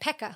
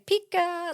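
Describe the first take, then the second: First: It sounds like 'Pekka', with a short 'e'. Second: It sounds like 'Pika', as in Pikachu. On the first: "Or you could say Pekka" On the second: "you could say Pika, like Pika"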